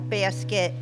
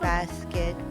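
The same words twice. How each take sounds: First: It is said with a New York accent. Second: It is said without a New York accent. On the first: "certain words that I still can't get rid of" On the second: "I could if I wanted"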